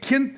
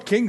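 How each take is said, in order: First: The syllable ends with a T sound. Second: The syllable ends with a G sound. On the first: The speaker calls it right. "c'est un T. K I N T" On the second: The speaker calls it wrong. "pas King, c'est même pas un G"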